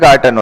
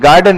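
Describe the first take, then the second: First: The middle consonant is a T sound. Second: The middle consonant is a D sound. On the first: The speaker calls it right. "गार्टन होता है" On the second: The speaker calls it wrong. "गार्डन नहीं होता"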